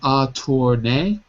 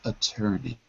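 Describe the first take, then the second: First: The middle syllable sounds like 'tour'. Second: The middle syllable sounds like 'tur'. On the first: The speaker calls it wrong. "Written attorney" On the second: The speaker calls it right. "pronounced attorney"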